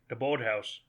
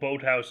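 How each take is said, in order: First: It is said in a Maine accent. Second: It is said in a plain accent.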